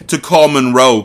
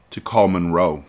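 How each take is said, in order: First: Louder, punchier read; more dramatic. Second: Said in the usual way. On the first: Shown as a demonstration. Carter answering Mia, redone louder and more dramatic. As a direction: give it real drama this time. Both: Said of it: "Let me try that again".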